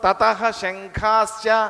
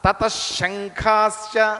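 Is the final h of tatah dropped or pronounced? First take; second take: pronounced; dropped. First: The h sound after tata is pronounced. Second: The h is dropped and the sh is doubled. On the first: The speaker calls it wrong. "తతహ శంఖాశ్చ అని చదవక్కర్లా" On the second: The speaker calls it right. "విసర్గని తీసేసి ష, షాకి షా ఒత్తు పెట్టేసేయటమే"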